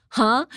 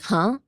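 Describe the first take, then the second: First: Louder, higher, confrontational "Huh?"; delinquent-like huh. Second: Said in the usual way. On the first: Shown as a demonstration. Speaker shows how huh lands rudely in Japanese, delinquent-like. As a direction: throw "Huh?" out loud like a challenge. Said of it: "kinda sound like a delinquent". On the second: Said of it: "your friends talking, you'll be like".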